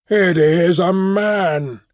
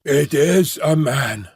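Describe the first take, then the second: First: A slow, weighty announcement from the dark; heavy, deliberate creature cry; slow beast voice. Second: Gabbling ape-man. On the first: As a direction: draw it out like a hidden beast. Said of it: "my conductor". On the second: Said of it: "gabbled my conductor". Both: A narrator's reading.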